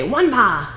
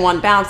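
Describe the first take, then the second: First: It is said in a Japanese accent. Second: It is said in a plain American accent. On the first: "they say one ba" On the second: "instead of saying one bounce"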